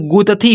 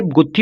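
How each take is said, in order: First: गुतथी said as gu-ta-thee, with a full "a" after त; wrong full-vowel reading. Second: गुत्थी said as gut-thee, with त closed onto थी; the right way, गुत्थी with a half त before थी; correct conjunct reading. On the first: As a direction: break गुतथी into three open syllables. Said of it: "complete words पढ़ा जाएगा ना". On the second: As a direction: hold the त of गुत्थी into थी, no vowel between. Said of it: "पहले गुत, गुत हो रहा है". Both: Shown as a demonstration.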